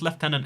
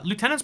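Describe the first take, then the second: First: It is said with a British pronunciation. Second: It is said with a Canadian pronunciation.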